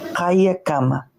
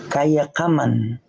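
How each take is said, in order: First: The word ends in a vowel, without n. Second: The word ends with an added n sound. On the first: "para decir Hayakama" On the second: "la N está de más"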